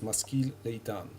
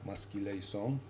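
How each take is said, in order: First: Standard Hebrew pronunciation, ending with a t sound. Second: Ashkenazi pronunciation, ending with an s sound. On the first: "in reality"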